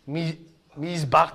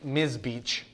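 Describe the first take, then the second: First: The word ends without an English 'ch' sound. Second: The word ends with an English 'ch' sound. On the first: The speaker calls it right. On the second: The speaker calls it wrong.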